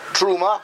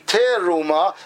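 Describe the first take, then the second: First: The vowel after the first consonant is dropped. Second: The first consonant is cut off from the next. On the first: "you're not pronouncing the shva properly" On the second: "you separated the tef from the resh"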